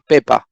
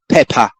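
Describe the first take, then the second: First: The p has no puff of air. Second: The p has a strong puff of air. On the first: The speaker calls it right. "in Spanish patanka are never aspirated... in Spanish we say pepa" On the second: The speaker calls it wrong. "We don't say pepa"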